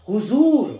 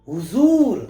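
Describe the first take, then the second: The two takes are said the same way.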